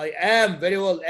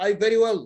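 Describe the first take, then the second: First: "am" stressed as the missing word. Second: Said in the usual way. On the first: Shown as a demonstration. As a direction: lean on "am" to show the correction. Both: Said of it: "What is the mistake here?".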